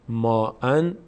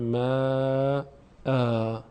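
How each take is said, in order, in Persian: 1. کلمه با صدای «ن» تموم میشه. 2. کلمه با «آ» کشیده تموم میشه. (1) "ما ان در هنگام وقف میشه ما آ" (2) "در هنگام وقف میشه ما آ"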